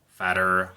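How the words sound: It is said in an American accent.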